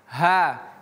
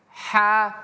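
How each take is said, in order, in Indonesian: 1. Bunyi h itu berat dan besar. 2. Bunyi h itu ringan dan tipis. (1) "ha besar" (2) "Tipis saja dia, kecil"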